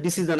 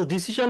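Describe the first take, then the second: First: ডিসিশন with a zh ending; native way. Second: ডিসিশন said with a plain sh ending; our local way. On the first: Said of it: "আমাদের মতো ডিসিশন শব্দটা শুনবেন না". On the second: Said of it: "আমাদের মতো ডিসিশন". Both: Shown as a demonstration.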